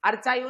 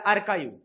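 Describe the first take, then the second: First: The middle consonant is a 'ch' sound. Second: The middle consonant is a 'k' sound. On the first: The speaker calls it wrong. "अर्चाईव्ह नाही बरं का" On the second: The speaker calls it right. "इकडे अर्काईव्ह"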